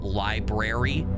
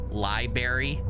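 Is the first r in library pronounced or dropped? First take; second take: pronounced; dropped. First: The first r sound is pronounced. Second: The first r sound is dropped. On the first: This is the standard way. The speaker calls it right. "how to say it properly with the R's" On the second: This is the casual way learned at home. The speaker calls it wrong. "Like I say library"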